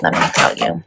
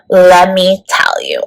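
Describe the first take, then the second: First: Unvoiced aside, let me tell you whispered low. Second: Slow, full-voiced Let me tell you with weight on Let; emphatic. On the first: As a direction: breathe let me tell you under your breath. Repeated catchphrase, first take. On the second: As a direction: land Let me tell you slowly and firmly. Repeated catchphrase, second take. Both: Real, not acted.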